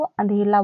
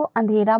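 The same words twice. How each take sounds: First: अंधेला with a clear l in place of r; अंधेला, the common childlike slip for अंधेरा. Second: Said in the usual way. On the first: Shown as a demonstration. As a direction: say अंधेला, turning the रा into ला. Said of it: "रा की जगह पे ला बोल देते हैं". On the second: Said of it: "अंधेरे को अंधेला बोल देते हैं".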